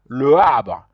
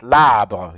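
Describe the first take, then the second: First: Both vowels are sounded, with a break between. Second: The first vowel is dropped, joining the words. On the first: The speaker calls it wrong. "You cannot say le arbre" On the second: The speaker calls it right. "when you remove the e, it will be, it sounds like this"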